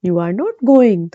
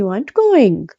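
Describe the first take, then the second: First: Slow, separated you are not going; slow full form. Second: Said in the usual way. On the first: Shown as a demonstration. Teacher reading the uncontracted example slowly. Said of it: "जैसे". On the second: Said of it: "तो हम कहेंगे".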